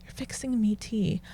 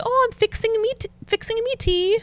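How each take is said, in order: First: Soft, baffled echo; hushed retold puzzlement; puzzled repeat. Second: High-pitched English mum; lilting imitation of an English mother; imitating mother-in-law. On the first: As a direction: repeat it quietly, working it out. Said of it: "And I'm like". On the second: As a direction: put on the mother-in-law's higher voice. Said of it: "So she'll say".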